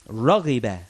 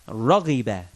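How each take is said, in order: The two takes are said the same way.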